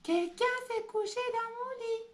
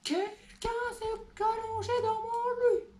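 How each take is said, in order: First: It is said in a medium bear voice. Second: It is said in a big, growling bear voice.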